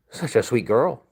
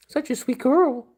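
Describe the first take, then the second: First: Said in the usual way. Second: The same words much higher, pet-talk style. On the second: Real, not acted. Owner gushing at the dog in high baby talk. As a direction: gush over the dog up high.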